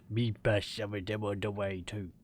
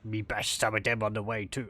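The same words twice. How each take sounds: First: It is read in a troll-like put-on voice. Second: It is read in a goblin-like put-on voice. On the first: A troll is speaking. The speaker calls it right. "I think it's like a troll speaking or something. It's a different inflection" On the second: A greenskin is speaking. The speaker calls it wrong. "this isn't a green a greenskin talking"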